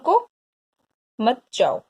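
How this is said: There is a pause after the first word. Stop, do not leave. "रुको के बाद क्या है? अल्प विराम है।"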